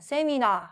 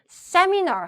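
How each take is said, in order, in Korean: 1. 음절들을 고르게, 첫 음절에 강세 없이 발음합니다. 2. 강세는 첫 음절에 있습니다. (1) "세미나 한 게 아니라" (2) "앞에 강세를 못 두면은 영어로 인정이 안 돼서 그래요"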